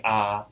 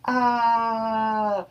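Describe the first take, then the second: First: Said in the usual way. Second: Long, high-pitched mock scream at normal volume; held high "aah", imitating a scream. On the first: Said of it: "And then as he's saying". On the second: Rigby screams at the growling wizard, long high mock scream. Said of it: "As Rigby is screaming".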